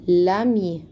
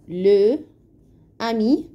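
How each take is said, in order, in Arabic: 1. حرف أداة التعريف بيتوصل على طول بالاسم. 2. أداة التعريف مقطع منفصل قبل الاسم. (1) "لازم نقول لامي" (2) "ما ينفعش نقول لو امي"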